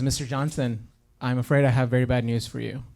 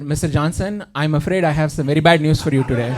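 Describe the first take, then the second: First: Put-on soft, low American-accented doctor. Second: Put-on Indian-accented doctor on the phone. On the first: Doctor phoning a patient with bad news, American accent. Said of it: "But instead, if you heard". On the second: Doctor phoning a patient with bad news, Indian accent. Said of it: "Indian people with, with our accents".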